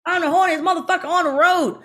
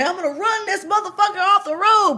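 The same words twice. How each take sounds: First: High, loud blurted line; mock yelled line. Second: High, loud threat yelled from the car; mock yell. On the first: Stuntwoman reenacting her mistaken yell, high and loud. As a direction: yell the wrong line at the driver. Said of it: "That's not what I was supposed to say". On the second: Driver reenacting the scripted threat, yelled high and loud. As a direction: shout it like you mean to ram him. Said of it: "I was supposed to say".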